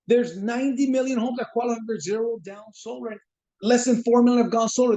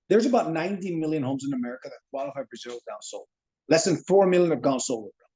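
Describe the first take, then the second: First: It is said in a weak, pleading manner. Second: It is said in a calm, confident manner.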